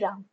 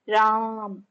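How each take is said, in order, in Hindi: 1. नाम सामान्य आवाज़ में छोटा बोला गया है। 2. नाम को ज़ोर से चिल्लाकर, स्वर खींचकर बोला गया है।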